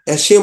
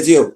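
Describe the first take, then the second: First: The middle consonant is a hissing s sound. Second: The middle consonant is a buzzing z sound. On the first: The speaker calls it right. "Double S থাকলে তালব্য বসার মতো উচ্চারণ হয়" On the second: The speaker calls it wrong. "Single S থাকলে বর্গীয় জয়ের মতো"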